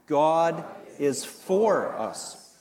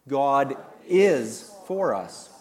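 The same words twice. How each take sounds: First: The stress is on the word for. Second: The stress is on the word is.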